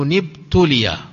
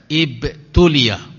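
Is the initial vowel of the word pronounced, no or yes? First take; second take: no; yes. First: The initial vowel is dropped, linked to the previous word. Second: The initial vowel is pronounced, said on its own. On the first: The word is read joined to the word before. "kalau kita melanjutkan nanti fi rajulun ibtuliya" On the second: The word is read on its own. "Kalau dia sendiri maka dibaca ibtuliya"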